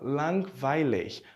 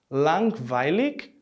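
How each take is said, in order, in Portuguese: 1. O g final soa como ch. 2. O g final soa como k. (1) "ou como um C H" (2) "ele pode soar como um K"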